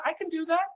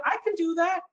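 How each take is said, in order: First: High, bright rising "that" with stress on "that"; eager yes-man promising good news; cheerful can-do. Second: Mock grave can-do. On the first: Pretend. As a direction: chirp it like a happy salesman on CNN. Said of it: "You want me to tell you the economy is great". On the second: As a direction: hit "can" like a pundit who'll say anything. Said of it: "You want me to tell you the economy is terrible".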